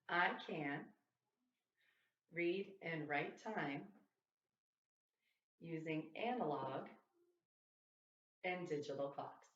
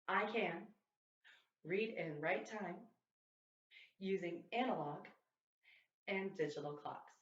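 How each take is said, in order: First: It is said at a normal speed. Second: It is said at a fast speed.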